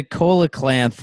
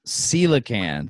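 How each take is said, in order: First: "coelacanth" said as KOH-luh-klanth; mispronounced coelacanth. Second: "Coelacanth" said slowly as SEE-luh-kanth; corrected pronunciation. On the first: Player naming the rare fish, mispronounced as KOH-luh-klanth. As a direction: say "coelacanth" with a hard K and an extra L. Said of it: "It's coelacanth". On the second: Player repeating the correction, slow SEE-luh-kanth. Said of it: "That makes a lot more sense". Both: Real, not acted.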